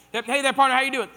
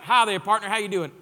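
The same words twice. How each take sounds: First: Big, hammed-up Texas cowboy hello; Texas accent, louder. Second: Loud Texan billionaire greeting; a hammed-up Texas accent; Texas drawl impression. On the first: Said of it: "We went with it". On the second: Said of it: "I don't know if that's how he talks".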